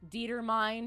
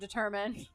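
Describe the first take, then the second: First: The word is said as it looks in spelling. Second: The word is said in its usual spoken form. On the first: The speaker learned the word from reading only. The speaker calls it wrong. "I mispronounced words" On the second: The speaker learned the word from hearing it. The speaker calls it right. "instead of"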